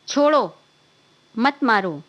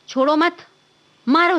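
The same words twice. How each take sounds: First: There is a pause after the first word. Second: There is a pause after the second word. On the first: Let him go, do not hit him. "Comma का स्थान उपयोग अगर बदल गया तो पूरा अर्थ ही बदल जाता है" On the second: Do not let him go, hit him. "ऐसे और फिर"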